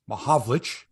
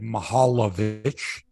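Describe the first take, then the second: First: The name is said with three syllables. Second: The name is said with four syllables. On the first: This is how the player himself says it. The speaker calls it right. "it was pronounced Mahavlich" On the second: This is a mispronunciation of the player's name. The speaker calls it wrong. "he said Mahalovich"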